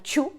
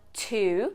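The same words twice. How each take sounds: First: It starts with a ch-like sound. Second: It starts with a plain t sound. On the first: It means to chew. The speaker calls it wrong. "Two é mastigar" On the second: It is the number two. The speaker calls it right. "Two é o número dois"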